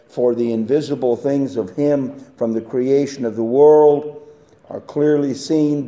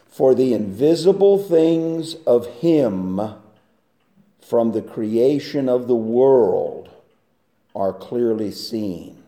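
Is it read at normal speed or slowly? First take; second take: normal speed; slowly. First: It is read at normal speed. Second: It is read slowly and deliberately.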